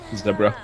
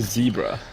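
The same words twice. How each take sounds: First: Zebra is said with a British pronunciation. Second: Zebra is said with an American pronunciation. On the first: "British pronunciation" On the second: "Americans say zebra for some reason"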